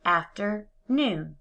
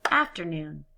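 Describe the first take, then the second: First: Slow, each syllable separate; syllables pulled apart. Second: Said in the usual way. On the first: Shown as a demonstration. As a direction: stretch "Afternoon" into its parts. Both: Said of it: "blend the two syllables together".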